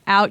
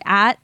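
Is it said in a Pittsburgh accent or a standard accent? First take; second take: standard; Pittsburgh. First: The vowel is the standard 'ow' sound. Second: The vowel is flattened, Pittsburgh style.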